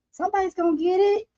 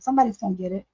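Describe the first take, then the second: First: पतली ऊँची चिढ़ाती आवाज़; high teasing singsong. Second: Said in the usual way. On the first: Pretend.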